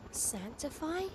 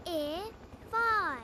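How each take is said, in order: First: Sanctify said normally as a soft question, with a clear k; Sanctify corrected, quieter and rising; correct pronunciation. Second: Sang-i-fy said slowly in three beats, the c dropped; Sang-i-fy sounded out syllable by syllable; mispronounced. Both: Shown as a demonstration.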